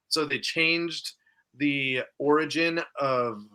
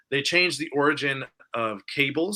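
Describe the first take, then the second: First: Running out of breath; words squeezed out on little air; breath catch. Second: Said in the usual way. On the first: Real, not acted. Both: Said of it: "I lost my breath there".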